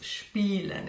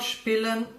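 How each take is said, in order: First: The first vowel is long. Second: The first vowel is short. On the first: The speaker calls it right. "it's spielen, it's long" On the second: The speaker calls it wrong. "Not spielen"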